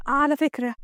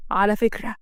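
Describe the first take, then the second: First: Lightly acted woman taking the boss to task; mildly reproachful employee; protesting female employee. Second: Lightly voiced man, a little lowered; a hint of a stern husband; rebuffing male boss. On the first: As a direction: object politely, in the lighter woman's voice. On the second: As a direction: throw her words back as a stern boss.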